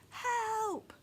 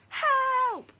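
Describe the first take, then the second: First: It is said in a quiet voice. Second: It is said very loudly. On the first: "First in a quiet voice" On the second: "then very loudly"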